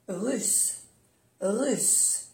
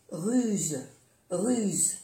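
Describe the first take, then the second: First: "russe" with a final unvoiced s; double S. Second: "ruse" with a final voiced z; soft Z. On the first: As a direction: say "russe" ending in a long hiss. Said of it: "pronunciar bien las dos S". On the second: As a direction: say "ruse" ending in a buzz. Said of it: "se pronuncia como una Z suave". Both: Shown as a demonstration.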